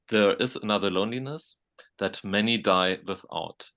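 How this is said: There is a pause after 'loneliness'. The line breaks off after 'loneliness'. "when there is a dash, you you make a pause"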